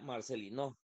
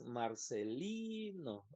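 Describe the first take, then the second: First: The stress is on the last syllable. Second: The stress is on the second-to-last syllable. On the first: The speaker calls it wrong. "si dijéramos que es no, diría Marcelino" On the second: The speaker calls it right. "Entonces es Marcelino. La sílaba tónica sería esta de aquí"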